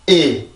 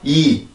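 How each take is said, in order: First: The vowel is said with tensed vocal cords. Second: The vowel is said loosely, without throat tension. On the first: The speaker calls it right. "한번 긴장을 시켜주고 이" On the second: The speaker calls it wrong. "그냥 우리나라 말처럼 이, 이 이렇게 나가는 게 아니라"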